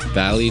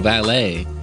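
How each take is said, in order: First: The name ends in an 'ee' sound. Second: The name ends in an 'ay' sound. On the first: The speaker calls it wrong. "I was saying it in my head as Valley" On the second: The speaker calls it right.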